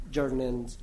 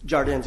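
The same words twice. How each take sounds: First: Jardins as a first, mistaken attempt; mispronounced name. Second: Jardins said as "shar-DENZ"; corrected name pronunciation. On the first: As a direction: stumble softly on Jardins before correcting it. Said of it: "Jardins, excuse me". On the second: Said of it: "excuse me". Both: Real, not acted.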